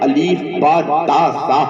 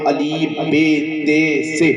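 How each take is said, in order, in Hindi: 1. अक्षरों के नाम 'a' स्वर पर खत्म होते हैं। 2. अक्षरों के नाम 'e' स्वर पर खत्म होते हैं। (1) "इस अंदाज में पढ़ाता नजर आए" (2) "ये मजहूल तरीका, ये रॉन्ग तरीका है"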